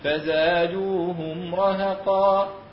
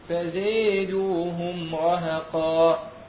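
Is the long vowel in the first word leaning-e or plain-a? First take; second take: plain-a; leaning-e. First: The long vowel is an open 'a' sound. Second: The long vowel leans toward an 'e' sound. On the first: "فله الفتح" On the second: "والمقدم هو الإمالة"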